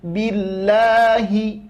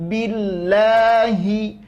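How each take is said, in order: First: The h sound is clearly pronounced. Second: The same.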